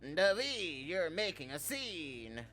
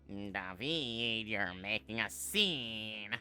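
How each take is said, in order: First: It is said in a birdlike put-on voice. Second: It is said in a nerdy put-on voice. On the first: "Not the bird. I accidentally ended up doing the Birdly voice" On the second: "that's a nerd voice"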